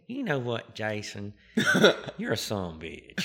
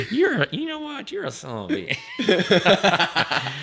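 First: Texas twang, laughing through it; Eddie's country twang. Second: Much higher, louder Texas twang, laughing, slow; Eddie's twang, run together. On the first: Eddie calling back the narrator in a Texas country twang. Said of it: "in his country twang say". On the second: Eddie teasing the narrator, running "son of a bitch" together in a Texas twang. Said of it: "he'll just run it all together". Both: Retold or imitated.

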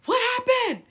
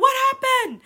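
First: High, loud startled dad; dad impersonation. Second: High, loud, startled dad call; dad impersonation. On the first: Dad hearing a thud upstairs, high loud call. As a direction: shout up the stairs like her dad. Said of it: "really good impersonation of him". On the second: Redoing her dad's call, high and loud. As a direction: yell it like a worried dad. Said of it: "So he could be like". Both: Retold or imitated.

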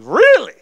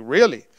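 First: High, loud, squealed really; amazed. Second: Low, punched really; lightly incredulous, kept low; taken aback. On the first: Student hearing he will be helped, amazed. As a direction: burst out in astonished delight. Second, bigger disbelief at offer. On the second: Student told God sent this man, taken aback. First disbelief at man's words. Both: Retold or imitated.

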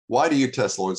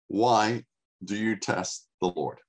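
First: Why do you test the Lord? said again louder with a push on "why"; pressed home. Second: Said in the usual way. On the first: Shown as a demonstration. Preacher repeats Moses' question to press it home, pushing on "why". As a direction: lean hard into "why" as a rebuke.

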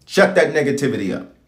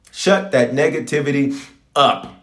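First: Said in the usual way. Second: "up" set apart after a pause; slow emphatic command. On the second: Real, not acted. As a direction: stretch the phrase, then land "up" on its own. Command repeated slower for emphasis.

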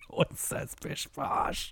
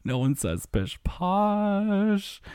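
First: Breathless, high squeak through laughter; helpless laughter. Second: Slow, high, stretched final word; drawn-out disbelief. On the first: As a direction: wheeze it out while cracking up. Cracking up at an absurd phrase. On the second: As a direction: draw out POSH in amused disbelief. Repeats the absurd phrase slowly. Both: Real, not acted.

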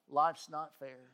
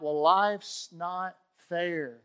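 First: Said in the usual way. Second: Slow, louder grumbling quote of a complainer; mock complaint. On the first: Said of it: "Yeah, that's right". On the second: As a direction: drag out "life's not fair" like a sulky protest. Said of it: "When you want to talk about".

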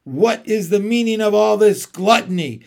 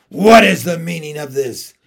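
First: Louder, scornful queen's demand; evil queen. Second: Commanding, much louder queen's demand; icy queen, demanding an answer; evil queen. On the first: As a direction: hurl the question at them. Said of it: "she said again". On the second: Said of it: "asked the witch queen". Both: A narrator's reading.

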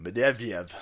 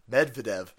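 First: Medvedev tried slowly, first try; trying the name. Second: Medvedev said as med-ve-dev, settled; name got right. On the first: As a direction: sound out Medvedev carefully. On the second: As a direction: say Medvedev firmly with falling tune. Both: Shown as a demonstration. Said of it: "I can't ever do that".

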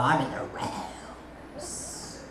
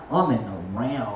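First: Slow, breathy whispered awe. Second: Low, hushed awe; awed low voice. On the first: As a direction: whisper it as if lost in glory. Repeated very slowly in a whisper. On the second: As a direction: drop deep into wonder. Quoting herself, awed. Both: Retold or imitated.

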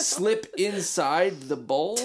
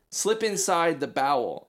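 First: "bowl" said as bowl, like a toilet bowl, rising question; slow, puzzled "bowl" rhyming with hole; bowl pronunciation. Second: "bowel" said with two syllables, bow-el, falling; slow, certain "bowel" like the intestine; bowel pronunciation. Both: Shown as a demonstration.

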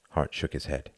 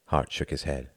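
No difference in how they are said.

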